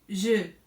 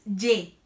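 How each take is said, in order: First: The vowel is an e with rounded lips. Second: The vowel is a plain e with spread lips. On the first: The speaker calls it right. "es je, una E en forma de O" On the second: The speaker calls it wrong. "no es ye"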